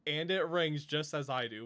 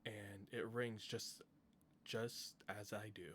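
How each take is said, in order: First: Reads the line again, louder and clearer; louder reread. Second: Quiet first read. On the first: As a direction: says the line again with more force. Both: Shown as a demonstration.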